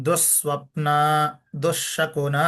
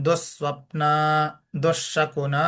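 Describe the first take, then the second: Both takes have the same delivery.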